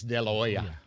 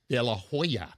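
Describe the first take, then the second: First: The H in Hoya glides softly. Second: The H in Hoya is said firmly. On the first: The speaker calls it right. "You allow the H to just gently glide" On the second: The speaker calls it wrong. "it is not"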